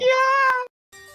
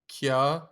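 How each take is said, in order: First: It is said loudly, with much energy. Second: It is said flatly, with little energy.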